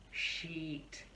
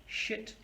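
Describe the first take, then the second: First: "sheet" with a long ee; long vowel. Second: "shit" with a quick short i; short vowel. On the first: Teacher contrasts more similar words, long vowel. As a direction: stretch the ee in "sheet". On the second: Teacher contrasts more similar words, short vowel. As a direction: keep the i in "shit" brief. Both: Shown as a demonstration. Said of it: "look at some other words as well".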